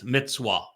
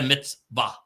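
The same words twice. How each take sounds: First: The word is said with a W sound. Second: The word is said with a V sound. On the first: The speaker calls it right. "It's a wa. It's mitzvah" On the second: The speaker calls it wrong. "It's not a mitzvah. There is no V sound"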